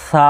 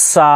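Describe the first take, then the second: First: "সা" with a very light th-like start, long aa; হালকা সিটি. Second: "সা" with a strong sharp whistling s; জোরে সিটি, ভুল. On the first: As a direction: begin "সা" without any sharp hiss. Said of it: "একবারে হালকা হবে". ("সা" একদম হালকা সিটিতে) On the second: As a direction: overdo the sibilant at the start of "সা". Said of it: "এভাবে সিটি জোরে হয়ে যাচ্ছে". ("সা" জোরে সিটি দিয়ে) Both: Shown as a demonstration.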